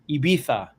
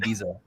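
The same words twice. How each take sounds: First: The name is said with a Spanish pronunciation. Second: The name is said with an American pronunciation. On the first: This is how people in Spain say it. "in Spain, they say Ibiza like that" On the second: This is how an American says it. "I'm American, so I'm gonna say Ibiza"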